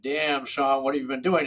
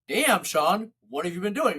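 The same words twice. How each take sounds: First: It sounds disappointed and critical. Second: It sounds impressed and admiring. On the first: The listener looks unhealthy and out of shape. "apparently not taking care of your health and fitness because you don't look that good" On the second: The listener looks healthy and energetic. "Because you look really good and healthy and vibrant and energetic"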